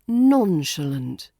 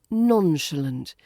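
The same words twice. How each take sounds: First: It is said lightly, stressing the first syllable. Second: It is said lightly, stressing the first syllable.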